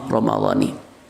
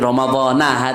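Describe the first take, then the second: First: The word ends with an 'i' vowel. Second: The word ends with an 'a' vowel. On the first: The speaker calls it right. "yang betul secara bahasa" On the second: The speaker calls it wrong. "itu termasuk salah kaprah"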